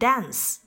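The vowel is said in an American way.

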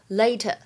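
The t is said as a clear t. "它的话呢在英式英语当中读成later"

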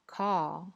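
It is said with a British accent. "英式英语叫car"

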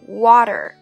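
It has an open 'ah' vowel and a strong r. "第一部分在美式英语里面会有一个啊的音"

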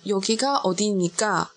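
The pitch falls at the end. It sounds like a statement though it asks. "这样一听的语气呢是陈述句"

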